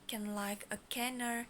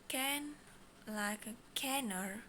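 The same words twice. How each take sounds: First: It is said at normal speed. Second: It is said slowly.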